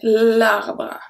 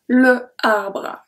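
First: The vowel of le is dropped before arbre. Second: The vowel of le is kept before arbre. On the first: The speaker calls it right. "So we say l'arbre" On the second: The speaker calls it wrong. "the pronunciation is not very good if you say that. Le arbre, that's weird"

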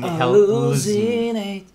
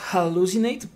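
First: The initial H is weak or nearly silent. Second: The initial H is sounded like a rough J. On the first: "Pero ahí ella dice hallucinate" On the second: "porque la H suena como una J"

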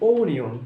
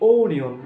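The two takes are said the same way.

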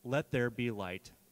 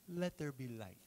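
First: It is read in the speaker's plain voice. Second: It is said in a passive, foppish king voice.

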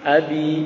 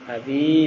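First: The stress is on the first syllable. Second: The stress is on the second syllable. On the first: The speaker calls it right. "tapi abi, a-nya ya" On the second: The speaker calls it wrong. "bukan abi"

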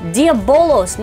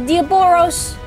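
First: The middle consonant is an L sound. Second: The middle consonant is an R sound. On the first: The speaker calls it right. "that is the power of Venom Diabolos" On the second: The speaker calls it wrong. "not Diaboros"

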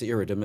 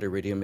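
First: The word has three syllables, ending in -dum. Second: The word has four syllables, ending in -dium. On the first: The speaker calls it right. "it's iridum" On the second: The speaker calls it wrong. "a lot of people make the mistake of calling it sinus iridium"

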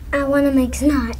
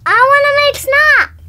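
First: It is said plainly, without much energy. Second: It is said loudly with lots of energy.

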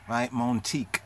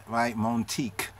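Both takes have the same delivery.

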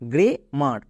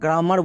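First: The first vowel sounds like 'eh'. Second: The first vowel sounds like 'ah'. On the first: The speaker calls it right. "এর সঠিক উচ্চারণ হচ্ছে গ্রে মার" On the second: The speaker calls it wrong. "একে ভুল করেও আমরা গ্রামার বলবো না"

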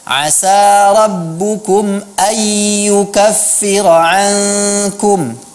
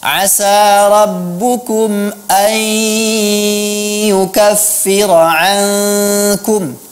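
First: The n is said without a held nasal hum. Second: The n merges into y with a held nasal hum. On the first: The speaker calls it wrong. "bukan seperti itu" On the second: The speaker calls it right. "Huruf nunnya dimasukkan ke dalam huruf ya dan diberi gunnah"

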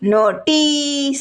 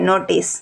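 First: The i vowel is long and heavy. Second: The i vowel is short and light. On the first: The speaker calls it wrong. "એમ બોલાય ન બોલાય" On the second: The speaker calls it right. "હળવું બોલાય"

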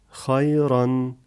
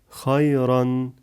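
No difference in how they are said.

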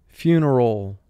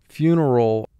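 The two takes are said the same way.

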